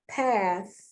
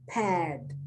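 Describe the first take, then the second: First: The word ends with a soft th sound. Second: The word ends with a d sound. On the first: The speaker calls it right. "I'm trying not to pronounce the T H like a D" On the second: The speaker calls it wrong. "instead of"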